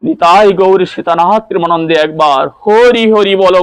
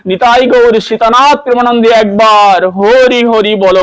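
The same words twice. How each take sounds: First: Said in the usual way. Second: Raised, ringing call to chant হরি হরি. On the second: Acted.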